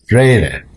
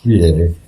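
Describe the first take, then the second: First: The name's vowels are read in 'ei' order. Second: The name's vowels are read in 'ie' order. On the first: The speaker calls it right. "it's Freire" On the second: The speaker calls it wrong. "people pronounce it Friere. It's not Friere"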